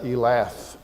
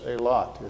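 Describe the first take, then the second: First: It has a short e and ends in th. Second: It has a long ay and ends in t. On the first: "why don't you say that Elath?" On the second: "the E lengthens and has an A sound, and the T H hardens"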